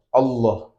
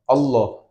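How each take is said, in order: The two takes are said the same way.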